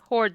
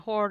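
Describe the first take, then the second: First: The final D sound is clearly pronounced. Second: The final D sound is dropped. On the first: The speaker calls it right. "Please make sure you pronounce the D" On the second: The speaker calls it wrong. "Because you didn't that time"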